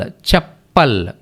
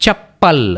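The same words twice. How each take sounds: First: చెప్పల్ said slowly, each syllable clear; slow careful pronunciation. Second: Said in the usual way. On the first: Shown as a demonstration. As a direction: spell out చెప్పల్ slowly for learners. (చెప్పల్ నెమ్మదిగా స్పష్టంగా పలకడం) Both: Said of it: "చూడండి, చెప్పల్ అవుతుంది".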